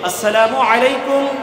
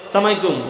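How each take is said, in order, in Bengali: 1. অভিবাদনটি প্রতিটি অক্ষর সহ পুরোটা বলা হয়। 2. অভিবাদনটি ছোট করে একটি সংক্ষিপ্ত শব্দে বলা হয়। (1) "সালাম দিতে হবে কি শুদ্ধভাবে" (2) "সালাম অনেক ভুল করি"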